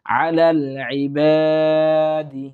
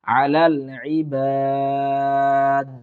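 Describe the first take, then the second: First: Said in the usual way. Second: ইবাদ ending in a silent দ, vowel held; stop on ইবাদ. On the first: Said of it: "যদি আমরা এখানে ওয়াকফ করি". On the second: Shown as a demonstration. Teacher shows how to pause at ইবাদ, drawn-out stop. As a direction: stop on ইবাদ with the last letter unvoweled. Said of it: "দালটা জজমের মতো উচ্চারণ হবে".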